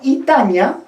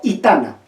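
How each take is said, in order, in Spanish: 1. La consonante antes de la vocal final es ñ. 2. La consonante antes de la vocal final es n simple. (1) "el cambio de la N por la ñ" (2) "el cambio de la N por la ñ"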